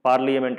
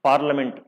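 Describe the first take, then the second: First: It is said with an extra 'ya' sound. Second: It is said without an extra vowel sound.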